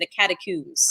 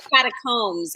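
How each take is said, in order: First: It is pronounced the British, London way. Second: It is pronounced the American way.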